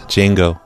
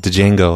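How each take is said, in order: First: The word starts with a J sound. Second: The word starts with a D sound. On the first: The speaker calls it right. "Django is pronounced Django" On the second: The speaker calls it wrong. "I thought it was Django"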